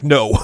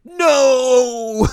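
First: Loud, straight-up no; emphatic, unhesitating denial; blunt refusal. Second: High, loud, drawn-out scream; anguished shout. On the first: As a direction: shut it down in one firm word. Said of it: "Just straight up like". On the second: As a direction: cry out in hammed-up denial. Ayumi reacts before tackling Yu. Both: Acted.

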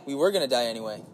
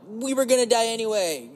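First: Said in the usual way. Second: Raised pitch, shrugging it off; resigned inner voice. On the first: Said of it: "And yeah". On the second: Retold or imitated. Part of him shrugs at dying, resigned. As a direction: toss it off like a joke. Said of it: "part of me is like".

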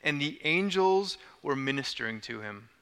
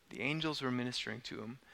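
First: Said in the usual way. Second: Much softer and quicker, almost to himself; soft repeat. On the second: Shown as a demonstration. Pastor echoing the verse to let it land, hushed.

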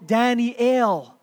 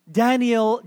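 First: Daniel said as dah-nee-EL; Hebrew pronunciation. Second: Said in the usual way. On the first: Shown as a demonstration. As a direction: stretch Daniel into three syllables ending in a clear EL. Original Hebrew form of the name.

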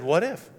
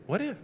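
First: 2 What if? asked with a light rise; 3 toss out the first What if? simply. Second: 2 What if? pushed much higher but softer; 3 lift the second What if? up high, pointed. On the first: 4 preacher challenging the church doubters, first What if? rising lightly. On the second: 4 preacher repeating What if? to the doubters, much higher and pointed. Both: Acted. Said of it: "And I said".

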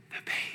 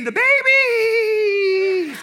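First: Eerie unvoiced whisper; creepy hushed sleep-talk, barely audible; creepy possessed voice. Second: High, loud, long-drawn demonic wail; eerie high cry, hugely drawn out; creepy possessed voice. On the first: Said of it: "in the creepiest voice I've ever heard". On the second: Retold or imitated. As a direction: stretch it out like someone possessed. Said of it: "then she says it again".

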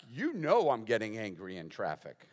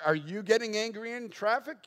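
First: Lower, falling acted answer; emphatic admission. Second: Higher-pitched, rising acted question; mock challenging question. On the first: Preacher answering the imagined skeptic, emphatic admission. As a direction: own up firmly, leaning on YOU KNOW. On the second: Imagined skeptic quizzing the preacher about traffic, mock challenging question.

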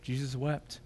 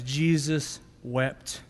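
First: Jesus wept repeated much softer, almost to oneself; hushed echo. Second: Slow, weighty reading of Jesus wept; solemn reading. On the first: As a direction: let it fall away in a hush. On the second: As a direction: draw each word out gravely. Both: Shown as a demonstration. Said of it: "Verse thirty-five says".

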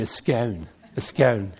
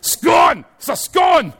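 First: "scone" with a long o, to rhyme with "stone"; English pronunciation. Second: "scone" shouted high, rhyming with "gone"; shouted Scottish pronunciation. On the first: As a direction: say "scone" the English way, low and rhyming with "own". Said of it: "as my English friends say". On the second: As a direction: yell "scone" with a short Scottish o. Corrects the English pronunciation by shouting. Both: Shown as a demonstration.

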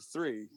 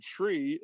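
First: Said in the usual way. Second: TREE with a plain t in place of th; TREE for three. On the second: Shown as a demonstration. Jokingly showing a New York accent, TREE with a hard t. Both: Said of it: "say the word tree instead of three".

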